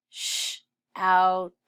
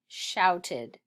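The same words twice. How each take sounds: First: "Sh-outed" as SH, loud OUT, ED; sounded out. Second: Said in the usual way. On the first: Shown as a demonstration. Teacher sounding out for pupils, sh, out, ed. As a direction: break "Sh-outed" into three separate chunks. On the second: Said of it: "Read shouted".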